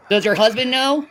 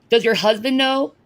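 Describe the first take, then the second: First: Know pushed up and held; stress on know. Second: Does hit at the start; stress on does. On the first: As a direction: lean on know at the end. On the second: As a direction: punch does, let the rest run flat. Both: Shown as a demonstration. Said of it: "repeated with new stress".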